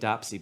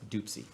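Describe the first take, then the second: First: The first vowel sounds like the 'o' in 'top'. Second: The first vowel sounds like the 'oo' in 'boot'. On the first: This is how the name is read from its spelling. The speaker calls it wrong. "It looks like Dwayne Dopsy" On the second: This is how the name is actually said. The speaker calls it right. "I think it's pronounced Doopsy"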